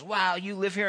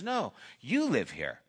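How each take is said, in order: First: Higher-pitched impressed question; mildly acted wonder at the house; amazed question. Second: "you" picked out in a matter-of-fact correction; stress on YOU. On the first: Rocky marvels at Pip's mansion, amazed. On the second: Retold or imitated. Pip corrects Rocky about the house, stress on "you". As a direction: lean on "you" to hand over ownership.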